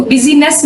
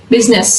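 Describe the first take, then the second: First: बिजीनेस with the I sounded, biz-i-ness; the wrong way, बिजीनेस; wrong pronunciation. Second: बिजनेस in two syllables, biz-ness; the right way, बिजनेस; correct, silent I. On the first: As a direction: say बिजीनेस in three syllables. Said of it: "इसको बिजीनेस नहीं हम बोलते". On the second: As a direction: swallow the I in बिजनेस. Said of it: "इसमें आई silent है". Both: Shown as a demonstration.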